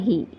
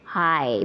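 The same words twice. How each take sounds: First: The vowel sounds like 'ee'. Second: The vowel sounds like 'eye'. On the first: The speaker calls it wrong. "bukan hi ya" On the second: The speaker calls it right. "tapi dibacanya hi"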